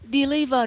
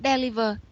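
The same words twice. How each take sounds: First: The stress is on the second syllable. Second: The stress is on the first syllable. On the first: The speaker calls it right. "the stress is on the second syllable" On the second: The speaker calls it wrong. "not deliver"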